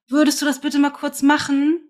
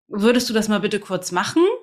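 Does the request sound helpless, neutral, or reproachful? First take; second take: helpless; neutral. First: It sounds helpless and small, pleading. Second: It sounds like a neutral, plain question.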